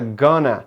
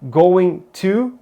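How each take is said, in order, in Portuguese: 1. As palavras se fundem em uma só palavra reduzida. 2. As duas palavras são ditas por completo e separadamente.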